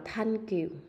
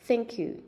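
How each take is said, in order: First: The th is an aspirated t, like Vietnamese th. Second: The th is a breathy sound with the tongue between the teeth. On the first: The speaker calls it wrong. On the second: The speaker calls it right.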